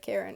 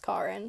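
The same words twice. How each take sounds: First: The name is said with an English pronunciation. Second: The name is said with a Japanese pronunciation. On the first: The speaker calls it wrong. "I don't say Karen" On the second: The speaker calls it right. "It was pronounced Karen, so at least in Japanese"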